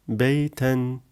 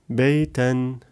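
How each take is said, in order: Both takes have the same delivery.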